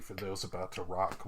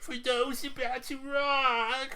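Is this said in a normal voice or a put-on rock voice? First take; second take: normal; put-on. First: It is said in the speaker's ordinary voice. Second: It is said in a put-on rock-singer voice.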